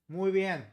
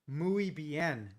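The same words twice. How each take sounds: First: It is said with a fairly native Spanish accent. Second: It is said with a heavy American English accent. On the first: The speaker calls it right. "How's my accent" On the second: The speaker calls it wrong. "At least it's not like a gringo"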